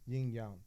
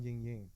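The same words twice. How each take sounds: First: It is said with a Chinese pronunciation. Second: It is said with an American pronunciation. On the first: The speaker calls it right. "the correct dialogue" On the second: The speaker calls it wrong. "It's not yin yang"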